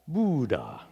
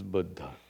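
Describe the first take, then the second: First: The word has an American-style pronunciation. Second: The word has a Sanskrit-style pronunciation. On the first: "Unless you're in America" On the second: "This is Buddha"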